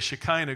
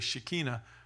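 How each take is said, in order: First: The word is said the usual English way. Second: The word is said the Hebrew way. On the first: This is how most English speakers say it. "Most of us would say Shekinah glory" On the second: This is how Hebrew speakers say it. "but they say Shekinah glory"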